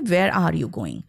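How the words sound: Indian accent, with every word said fully. "और Indians जो होंगे"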